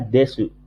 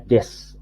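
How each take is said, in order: First: The final u vowel is fully pronounced. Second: The final u vowel is dropped. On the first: "tulisannya desu" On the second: "tapi dibacanya des"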